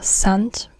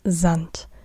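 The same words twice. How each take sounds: First: It begins with a sharp s sound. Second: It begins with a buzzing z sound. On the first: The speaker calls it wrong. "it's not der Sand" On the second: The speaker calls it right. "Z, not S, but Z"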